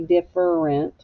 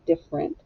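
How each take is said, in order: First: The middle E sound is pronounced, three syllables. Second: The middle E sound is dropped, two syllables. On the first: The speaker calls it wrong. "We don't say different" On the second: The speaker calls it right. "We say different. / we don't really say the E sound"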